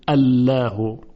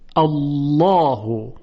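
First: The l is light and thin. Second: The l is heavy and thick. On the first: The speaker calls it wrong. "یعنی نمیگوییم الله" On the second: The speaker calls it right. "لام تفخیم میشه و با صدای درشت تلفظ میشه"

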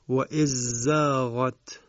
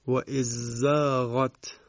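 First: The dh sound merges into the z. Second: The dh sound merges into the z.

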